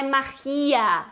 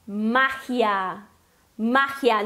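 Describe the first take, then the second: First: "magia" stressed on the I, ma-KHI-a; wrong stress. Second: "magia" with stress on MA and a raspy J; Spanish pronunciation. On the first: Teacher shows learners what to avoid, wrong stress. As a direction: say "magia" in three syllables, leaning on GI. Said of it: "não é magia". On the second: Teacher models the word for learners, Spanish pronunciation. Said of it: "A pronúncia é". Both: Shown as a demonstration.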